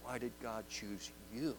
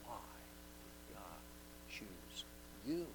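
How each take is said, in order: First: You lifted on a rising tune at the end; soft question with weight on you; stress on YOU. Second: Why did God choose you with a pause between each word; softly, each word set apart; slow, word by word. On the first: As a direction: lean on the word you. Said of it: "with the emphasis on you". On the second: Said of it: "Many times it's a question". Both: Shown as a demonstration.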